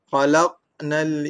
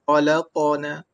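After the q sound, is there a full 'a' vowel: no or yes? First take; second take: no; yes. First: The q is closed with a bounce, no vowel. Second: The q is followed by a full 'a' vowel. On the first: We created mankind. The speaker calls it right. "saya tidak miripkan dengan mana-mana baris" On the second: Mankind created God. The speaker calls it wrong. "Kalau saya baca dengan mirip kepada baris atas"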